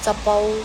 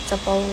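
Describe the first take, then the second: No difference in how they are said.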